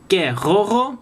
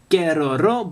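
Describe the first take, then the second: First: The R is a French throaty sound. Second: The R is a light Japanese-style tap. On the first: The name is recognized. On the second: The name is not recognized.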